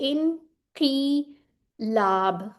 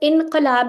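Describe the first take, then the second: First: The vowel after the q is an i. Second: The vowel after the q is a short a. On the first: The speaker calls it right. "इस तरह करके लिख लें ताकि आपको भूले ही ना" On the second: The speaker calls it wrong. "इनकलाब नहीं कहना, वो हम उर्दू में गलत बोलते हैं"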